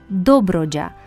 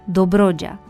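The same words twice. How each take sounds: First: The stress is on the first O. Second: The stress is on the second O. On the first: The speaker calls it right. "cu accent pe primul O" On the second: The speaker calls it wrong. "nu pe al doilea"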